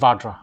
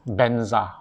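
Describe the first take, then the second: First: It starts with v and ends in jra. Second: It starts with b and ends in a z sound. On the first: This is the original form of the word. "but actually, uh, it's Bhadra, it's Vajra" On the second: This is the form passed down in mantras. "they pronounce it in, a, in an approximation of the sound"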